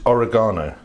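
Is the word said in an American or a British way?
British. It is said with a British pronunciation.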